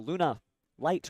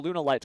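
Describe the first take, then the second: First: A short pause splits the word in two. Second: The word is said without a pause inside. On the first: The speaker calls it right. "you just have to pause, take a breath there as you're saying it" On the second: The speaker calls it wrong. "it's not a Lunalight card"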